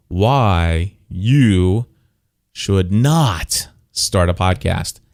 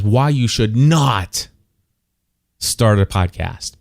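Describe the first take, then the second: First: Slow title read with "Not" hit hard; "Should Not" drawn out, "Not" weighted; stress on NOT. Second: Slow, with "not" punched as in all caps; "should not" stretched slowly, "not" leaned on heavily; stress on NOT. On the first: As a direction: lean on "Not" as if in caps. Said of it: "the word not, N O T, is all in caps". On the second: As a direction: hit "not" like capital letters. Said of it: "I just wanna emphasize again, the word not". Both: Shown as a demonstration.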